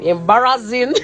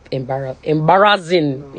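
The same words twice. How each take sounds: First: Laughing. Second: Tearful. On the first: Laughs at own crying. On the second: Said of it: "I was fucking crying". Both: Real, not acted.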